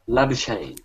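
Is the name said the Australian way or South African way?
Australian. The name is said the Australian way. "I don't think the South Africans pronounce it like that"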